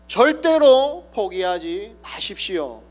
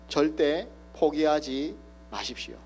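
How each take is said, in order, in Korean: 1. 온 힘을 다해 외칩니다. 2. 부드럽고 또박또박 말합니다. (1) "온 힘을 다하여서 외칩니다" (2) "작은 소리로 또박또박 이야기합니다"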